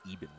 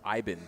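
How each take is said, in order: First: The name begins with an 'ee' vowel sound. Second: The name begins with an 'eye' vowel sound. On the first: This is how the current pronunciation guide gives it. "the pronunciation guide we've been given says it's pronounced Eben" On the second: This is how it was said in his earlier league. "when he was in the C F L, his name was pronounced Iben"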